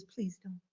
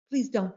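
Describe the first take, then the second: First: Almost breathed, much softer plea. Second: Said in the usual way. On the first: Shown as a demonstration. Teacher softly begs students not to use percentages, very soft. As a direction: beg them gently, under your breath.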